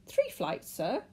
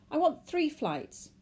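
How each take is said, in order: First: Very high, startled echo; high-pitched puzzled clerk; incredulous query. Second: High, slow, loud demand; emphatic, urgent order. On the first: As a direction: query it politely but taken aback. Clerk queries the request. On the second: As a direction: state it insistently to the ticket clerk. Man demands tickets at desk. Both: A narrator's reading.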